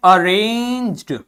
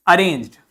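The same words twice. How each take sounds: First: Arranged with a long, stretched "ay" in the middle; drawn-out reading. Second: Said in the usual way. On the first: Shown as a demonstration. Teacher showing how a word is read, drawn out. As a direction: stretch Arranged out slowly for learners. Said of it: "इसको देखिए क्या पढ़ते हैं?". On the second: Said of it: "क्या हो जाता है ये?".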